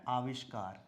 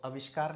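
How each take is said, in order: First: आविष्कार with a long initial aa; correct pronunciation. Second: आविष्कार with the first vowel cut to short a; common mispronunciation. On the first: Teacher giving the right form, आविष्कार starting on long aa. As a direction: say आविष्कार as "aa-vishkaar". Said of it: "क्या होता है?". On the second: Teacher showing the wrong form, आविष्कार starting on short a. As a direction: say आविष्कार as "a-vishkaar". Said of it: "आविष्कार नहीं होता है". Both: Shown as a demonstration.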